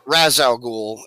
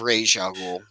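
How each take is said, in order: First: The first word is said like Raz. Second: The first word is said like Raish. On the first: This is the name as said in the films. The speaker calls it wrong. "I used the movie pronunciation" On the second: This is the name as said in the comics. The speaker calls it right. "not the canon pronunciation"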